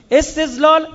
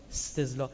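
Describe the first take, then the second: First: Loud emphatic. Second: Soft murmur. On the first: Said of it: "word said again, louder". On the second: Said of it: "word said again, softly". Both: Shown as a demonstration.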